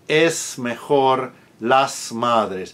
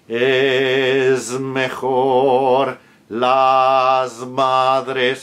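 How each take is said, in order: First: The S sounds before consonants are voiceless hisses. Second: The S sounds before consonants are voiced like Z. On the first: "In my country, for example, in uh, Uruguay or Argentina" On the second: "If you want to be very correct in Castilian"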